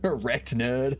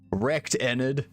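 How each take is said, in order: First: The second part sounds like the word nerd. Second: The second part sounds like the name Enid. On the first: The speaker calls it wrong. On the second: The speaker calls it right.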